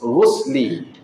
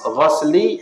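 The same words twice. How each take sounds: First: The first vowel is an 'u' sound. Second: The first vowel is an 'a' sound. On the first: It means bathing the body. The speaker calls it right. "Kena baca ghus, ghusli. Ke dhammah" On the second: It means washing something. The speaker calls it wrong. "Kalau baca ghus, ghusli, hak tu basuh"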